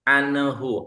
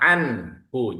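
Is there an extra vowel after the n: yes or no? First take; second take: yes; no. First: An extra vowel is added after the n. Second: The n goes straight into the h, no vowel. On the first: The speaker calls it wrong. "Gak boleh ada ne-nya" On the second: The speaker calls it right. "anhu jelas ya"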